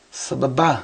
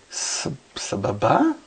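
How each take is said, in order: First: Said in the usual way. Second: Slow, halting "sababa" with rising question tune; tentative, drawn-out "sababa", lifted at the end. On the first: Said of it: "ask me if that's". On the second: Retold or imitated. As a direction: say "sababa" unsurely, as if checking the word. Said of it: "Like, ask me if that's".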